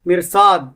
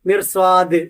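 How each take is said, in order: First: The final d is swallowed without a clear release. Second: The final d is clearly released with a bounce. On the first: The speaker calls it wrong. "അങ്ങനെ പറയരുത്" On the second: The speaker calls it right. "ദ് എന്ന് കൃത്യമായി വെളിപ്പെടുത്തി നിർത്തുക"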